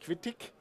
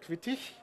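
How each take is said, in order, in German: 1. Die Endung wird mit hartem k-Laut gesprochen. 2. Die Endung wird mit weichem ich-Laut gesprochen. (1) "Also nicht Quittig" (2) "sondern Quittig"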